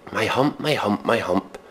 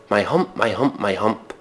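The two takes are said the same way.

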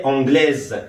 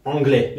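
First: "anglaise" with the final s voiced as z; final consonant pronounced. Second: "anglais" with a silent final s; final consonant silent. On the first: Teacher showing the feminine form, "anglaise" ending in a clear z. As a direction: sound the closing z in "anglaise". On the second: Teacher showing the masculine form, "anglais" with the s dropped. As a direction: end "anglais" on an open è sound, no z. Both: Shown as a demonstration.

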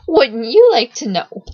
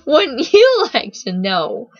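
First: Cheeky, louder, with a leap on YOU; snickering taunt. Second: Slow, higher, loud teasing drawl. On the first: Strange boy dodging Siggy's question, snickering taunt. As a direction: toss it out as a teasing dodge. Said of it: "The boy snickered". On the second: Boy asked his name by Steffi, slow teasing taunt. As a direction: draw it out tauntingly, leaning on YOU. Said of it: "he teased". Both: A narrator's reading.

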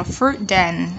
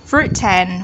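First: "fruit dan" linked, T softened to D; middle T as D. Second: "Fruit tan" linked with a crisp T; clear T. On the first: Teacher showing students the alternative, T as D. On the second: Teacher showing students the first option, clear T. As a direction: say "Fruit tan" with a true T sound. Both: Shown as a demonstration. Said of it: "T trung âm".

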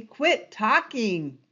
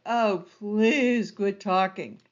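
First: "quit" punched, slow and falling; firm instruction. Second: Slow, weary, drawn-out plea; bored plea. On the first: Shown as a demonstration. Teacher instructing presenters, firm and slow. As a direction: state "quit talking" as a firm rule. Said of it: "original instruction". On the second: Retold or imitated. Bored viewer pleading with a droning presenter, weary and slow. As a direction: sigh it out like a bored webinar viewer. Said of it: "you're just like".

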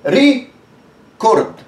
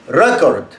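First: ريكورد drawn out very slowly, ري stressed; stress on first syllable. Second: ريكورد said lower and short, weight on كورد, ري clipped to ر; stress on second syllable. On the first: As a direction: stretch ريكورد, leaning on ري. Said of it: "يبقى أنا دوست على دي". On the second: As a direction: drop the first vowel of ريكورد and hit كورد. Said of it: "لو اتكيت على الحرف التاني". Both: Shown as a demonstration.

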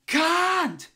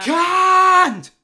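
First: High strained scream on Can't. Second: Can't screamed very high and very loud; full scream. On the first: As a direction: shriek Can't, high and crying. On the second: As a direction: blast Can't at the top of the lungs. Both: Acted. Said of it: "You shouldn't scream at me".

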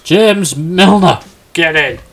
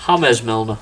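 First: Slow, high, loud cry of the name; drawn-out gleeful yell; triumphant shout. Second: Name said through a laugh; amused repeat. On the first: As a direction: celebrate the punchline. Delighted at surprise answer. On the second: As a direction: chuckle it out. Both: Real, not acted.

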